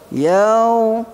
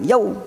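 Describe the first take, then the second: First: The syllable is said softly and smoothly. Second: The syllable is said with an abrupt hard hit. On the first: The speaker calls it right. "Yaw tu lembut" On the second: The speaker calls it wrong. "Jangan yaw. Ha, jangan hentak dia"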